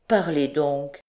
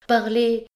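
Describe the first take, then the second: First: Said in the usual way. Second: Urgent plea. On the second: Acted. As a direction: press her, voice climbing on "Parlez".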